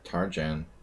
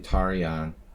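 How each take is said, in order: First: The name is said with an English pronunciation. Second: The name is said with a Hungarian pronunciation. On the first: This is how people commonly said it. The speaker calls it wrong. "everyone pronounced it" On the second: This is the original form of the name. The speaker calls it right. "It's actually Tarjan"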